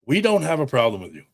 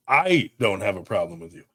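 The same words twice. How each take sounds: First: "we" stressed, then a quick falling line. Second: Single out "I" as the personal view; stress on I. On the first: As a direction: lean on "we" to speak for the group. Contrasts his brand with himself. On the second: Himself as against the group. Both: Real, not acted.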